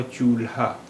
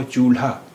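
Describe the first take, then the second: First: चूल्हा split as chool-haa; separate l and h. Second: चूल्हा with ल and ह run together as one sound; blended lha. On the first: Teacher showing the second way, चूल्हा with l and h apart. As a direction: finish the ल in चूल्हा, then a separate हा. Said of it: "ला और हा की अलग-अलग आवाज़". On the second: Teacher showing learners the first way, चूल्हा with blended lha. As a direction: say चूल्हा with a single breathy ल्हा. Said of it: "एक मिली हुई आवाज़". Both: Shown as a demonstration.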